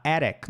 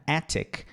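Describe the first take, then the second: First: "attic" with a flapped T; T softened to tap. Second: "Attic" with a crisp T, softly; T fully sounded. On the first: Teacher showing the other acceptable variant, tapped T. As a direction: say "attic" like A-rick. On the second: Teacher showing an acceptable variant, crisp T. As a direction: say "Attic" as AT-tick. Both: Shown as a demonstration. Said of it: "não tem problema".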